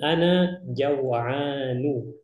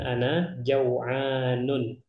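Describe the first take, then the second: First: The last word ends on a plain vowel. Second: The last word ends with an added n sound. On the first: The speaker calls it right. "antum bilangnya ana jaw'anu" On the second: The speaker calls it wrong. "bukan ana jaw'anun"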